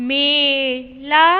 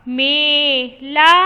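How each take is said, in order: The two takes are said the same way.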